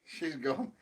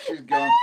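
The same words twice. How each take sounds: First: Said in the usual way. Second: A sudden high loud squeal on gone. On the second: Real, not acted. Partner squealing as she loses it. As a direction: yelp it out in disbelief. Partner watching her crack up.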